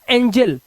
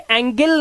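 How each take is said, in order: First: The g is said as a j sound. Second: The g is said as a hard g sound. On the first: The speaker calls it right. "हमने इसे पढ़ा एंजल" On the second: The speaker calls it wrong. "इसे एंगल नहीं पढ़ा"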